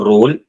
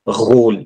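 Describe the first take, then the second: First: The r is a plain English-like r sound. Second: The r is a guttural sound from the throat. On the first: The speaker calls it wrong. "Not रोल" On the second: The speaker calls it right. "we will pronounce it as घ ... It's kind of like a mixture of R and K"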